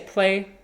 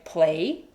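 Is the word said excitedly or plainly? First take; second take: plainly; excitedly. First: The word is said plainly, with flat pitch. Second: The word is said excitedly, with lively pitch. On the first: The cat is not interested. "if I just say play, it's like eh" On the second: The cat gets really excited. "we say it with a certain like pitch"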